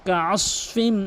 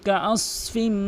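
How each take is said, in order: Both takes have the same delivery.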